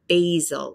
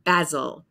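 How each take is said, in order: First: The first vowel is a long 'ay' sound. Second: The first vowel is an open 'ah' sound. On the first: "And for us, the long A sound" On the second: "in British English, that would be basil ... ah, ah, ah"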